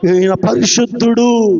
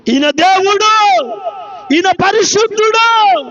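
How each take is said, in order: First: Low-pitched, measured declaration; low retold declaration. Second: Slow, raised preaching cry; drawn-out retold cry. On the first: Preacher quotes the spirit naming the Holy One, low and restrained. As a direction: say it low, holding back the cry. First take of demon's words. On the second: Preacher cries out the spirit's confession, slow and raised. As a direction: call it out with stretched endings. Demon's words repeated as a cry.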